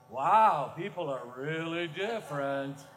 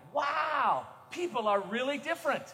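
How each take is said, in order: First: It is said in a judgmental, disapproving tone. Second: It is said in a sincere, appreciative tone. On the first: Being different is seen as strange. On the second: Being different is seen as good.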